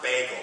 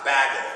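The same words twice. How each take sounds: First: "bagel" said with a long A, like "bay". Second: "bagel" said with a short flat A, like "bag". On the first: Showing what girlfriend doesn't say, "bagel" with long A. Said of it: "and it's not bagel". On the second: Showing what girlfriend doesn't say, "bagel" with short A. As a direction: say "bagel" to rhyme with "haggle". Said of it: "it's not bagel and it's not bagel". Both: Shown as a demonstration.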